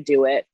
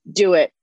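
First: Said in the usual way. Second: "Do it." said again much louder with force; emphatic repeat. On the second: Real, not acted. Urging listeners to chase their dream, emphatic louder repeat. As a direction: punch "Do it." the second time.

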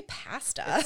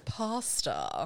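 First: "pasta" as PASS-tuh, with a short a; higher, drawn-out "pasta", short British a; wrong-sounding pasta. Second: "pasta" as PAH-stuh, drawn out; slow "pasta", first vowel as in father; corrected pasta. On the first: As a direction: say "pasta" slowly with the a of cat. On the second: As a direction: say "pasta" slowly with an open ah. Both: Shown as a demonstration. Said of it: "Don't say it like that".

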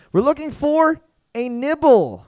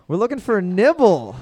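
First: Slow, higher quiz-host announcement; drawn-out answer reveal. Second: Said in the usual way. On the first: Acted. Quiz host revealing the answer to the room, slow and high. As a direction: stretch it out like a game show reveal.

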